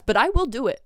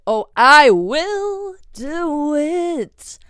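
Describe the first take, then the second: First: Said in the usual way. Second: "Oh, I will do it" stretched very slowly, high and loud; emphatic threat. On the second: Real, not acted. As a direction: draw out "I will do it" as a menacing vow. Drawn-out repeat as a threat.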